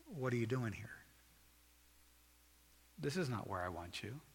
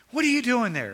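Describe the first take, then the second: First: Soft, gentle appeal; loving, broken-hearted. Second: Loud, high parental scolding; condemning scolding. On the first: God looking at you with a broken heart, loving appeal. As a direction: ask it softly with a grieving love. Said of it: "But with a loving, broken heart". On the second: Parent scolding the kids, condemning shout. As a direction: yell it like a cross parent catching a kid. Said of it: "God's not coming to you in a con-, condemning". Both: Acted.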